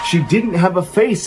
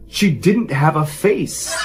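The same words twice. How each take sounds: First: Higher, near-shouted horror; horrified cry. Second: Slow, dazed horror, half whispered to herself; stunned, slow reveal. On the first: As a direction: cry it out in terror. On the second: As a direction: let the horror sink in slowly. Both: Retold or imitated. Terrified mother reveals what she saw.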